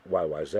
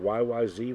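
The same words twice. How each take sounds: First: The last letter is said the Canadian way, zed. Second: The last letter is said the American way, zee.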